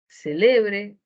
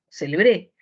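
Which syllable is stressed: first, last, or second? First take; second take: second; last. First: The stress is on the second syllable. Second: The stress is on the last syllable.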